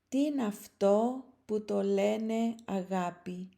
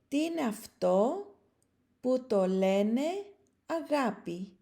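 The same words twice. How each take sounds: First: The line is read at a normal pace. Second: The line is read slowly and deliberately. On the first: "at a more normal speed" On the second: "at a low speed"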